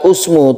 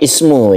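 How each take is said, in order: First: The word begins with a u vowel. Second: The word begins with an i vowel. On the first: The speaker calls it wrong. "bukan usmu" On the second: The speaker calls it right. "tapi ismu"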